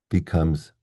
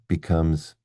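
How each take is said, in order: No difference in how they are said.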